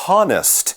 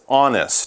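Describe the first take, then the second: First: The word begins with a sounded H. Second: The word begins with a vowel, no H. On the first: The speaker calls it wrong. "There is an H at the beginning, but you do not say honest" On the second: The speaker calls it right. "So you do kind of skip the H"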